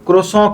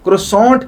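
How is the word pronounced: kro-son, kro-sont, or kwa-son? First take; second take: kro-son; kro-sont. First: It starts with kro and ends nasal, no t. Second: It starts with kro and ends with a t. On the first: This is the common local way of saying it. "हम पाकिस्तानी आम तौर से इसको क्रोसॉं कहते हैं" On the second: It is said the way it is spelled. "इसकी spelling की वजह से इसको क्रोसॉन्ट कहते हैं"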